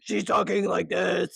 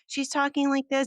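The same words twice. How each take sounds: First: It is said in a devil voice. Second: It is said in a cute, sweet voice.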